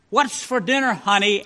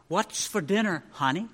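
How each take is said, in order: First: Husband asking right at her ear. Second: Asked softly, barely above a breath; husband asking softly across the room; very quiet. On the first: Husband at her chair, pitched-up question. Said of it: "practically in her ear". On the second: Husband testing wife's hearing, very quiet question. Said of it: "very quietly he said from his chair". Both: A narrator's reading.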